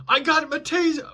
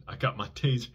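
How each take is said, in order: First: High, loud mock cop shout; imitating a cop yelling. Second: Said in the usual way. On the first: Cop warning the suspect under the car, high loud shout. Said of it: "I hear a cop yell".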